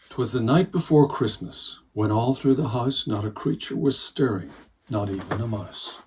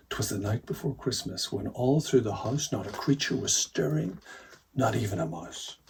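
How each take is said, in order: First: Louder, fuller read-aloud start of the poem; storytelling reading. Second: Said in the usual way. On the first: Shown as a demonstration. Reader beginning the poem for children, storytelling voice. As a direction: open the poem like a bedtime storyteller. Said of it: "I'm gonna read the whole of the poem". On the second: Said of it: "the first lines are".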